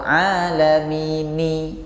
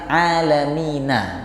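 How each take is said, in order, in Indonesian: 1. Kata itu berakhir dengan vokal i. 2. Kata itu berakhir dengan vokal a. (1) "atau alamini" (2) "Itu kan aslinya alamina"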